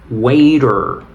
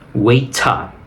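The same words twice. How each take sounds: First: It is said with an American accent. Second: It is said with a British accent. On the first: "si es pronunciación eh, americana" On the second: "Si quieres pronunciación británica sería waiter"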